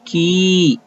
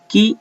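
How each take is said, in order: First: की with the ee drawn out and lifted higher; की held long on a raised ee; long vowel. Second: की said quick and short, the i barely held; की with a brief i, not drawn out; short vowel. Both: Shown as a demonstration. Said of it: "और जिस पर दो number है उसे ज्यादा खींचना है".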